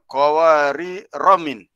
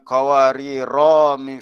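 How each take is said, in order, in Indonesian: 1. Vokal setelah ra pendek, tersambung. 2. Vokal setelah ra dipanjangkan. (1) "Ra tu jangan dipanjangkan" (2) "Jangan baca dengan"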